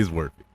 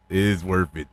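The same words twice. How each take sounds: First: Said in the usual way. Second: IS pressed hard and held a touch longer; stress on IS. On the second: Shown as a demonstration. Reviewer insisting to listeners, weight on is. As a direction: lean on the word is, as if insisting.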